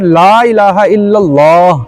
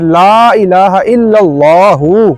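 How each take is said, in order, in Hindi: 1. आख़िरी शब्द बिना स्वर वाली 'h' ध्वनि पर खत्म होता है। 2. आख़िरी शब्द छोटे 'u' स्वर पर खत्म होता है। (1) "अगर आपने वहां पे रुकना है" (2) "ऊपर पेश है"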